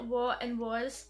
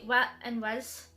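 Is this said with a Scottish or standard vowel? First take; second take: standard; Scottish. First: The vowels are said the standard way. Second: The vowels are changed the Scottish way. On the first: "instead of saying" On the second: "I would say"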